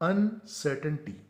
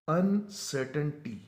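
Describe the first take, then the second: Both takes have the same delivery.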